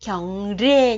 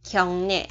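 First: "kyong rê" with the R kept as a plain R sound; wrong reading. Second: "kyong nhẹ" with the R turned into N, a smooth nasal "nhẹ"; correct Korean reading. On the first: Teacher showing students the wrong reading to avoid, R kept. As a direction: demonstrate the mistaken "kyong rê", R not changed to N. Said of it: "không đọc là kyong rê nha". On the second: Teacher showing students the correct Korean reading, clear nasal N. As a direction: say "kyong nhẹ" the right way, R read as N. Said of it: "không đọc là kyong rê". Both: Shown as a demonstration.

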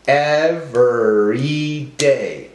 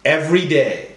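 First: Slow, drawn-out ev-er-y-day; broken into syllables. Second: Said in the usual way. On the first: Shown as a demonstration. Teacher helping class count syllables, slowly syllable by syllable. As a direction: sound out each syllable slowly. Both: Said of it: "break up our words into syllables".

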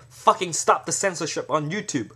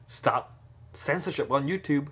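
First: Angry protest chant; forceful demand. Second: Said in the usual way. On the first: Shown as a demonstration. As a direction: punch the fucking, a bit louder. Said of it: "if someone say". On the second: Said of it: "if you just say".

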